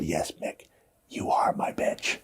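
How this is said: The line is whispered.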